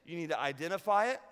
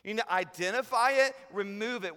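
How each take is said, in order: First: Said in the usual way. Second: Forceful repeat. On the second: Shown as a demonstration.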